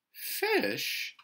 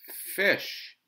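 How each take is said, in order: First: Very high, startled "Fish"; "Fish" drawn out in high-pitched disbelief; surprised. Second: FISH announced high and loud, falling; loud, boyish statement of "Fish"; called-out answer. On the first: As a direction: echo "Fish" in motherly surprise. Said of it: "Missus Huggins sounded surprised". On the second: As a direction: call out "Fish" as a sure answer. Boy calls answer to mother. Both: A narrator's reading.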